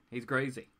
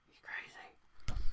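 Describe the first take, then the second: First: Said in the usual way. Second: Slow breathy whisper. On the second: Shown as a demonstration. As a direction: whisper it slowly, spooky.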